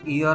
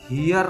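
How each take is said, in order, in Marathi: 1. हा शब्द स्वराच्या आवाजाने सुरू होतो. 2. हा शब्द h च्या आवाजाने सुरू होतो. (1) "इयर म्हणतो आपण" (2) "हियर नाही म्हणत"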